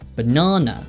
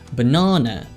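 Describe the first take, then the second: First: It is said with a British accent. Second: It is said with a British accent.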